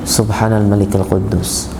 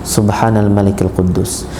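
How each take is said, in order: No difference in how they are said.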